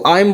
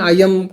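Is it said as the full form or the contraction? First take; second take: contracted; full. First: The words are shortened into one syllable. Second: Both words are said in full. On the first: The speaker calls it right. "बोलना शुरू कर दें, बेहतर है" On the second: The speaker calls it wrong. "आप आई एम बोलते हैं"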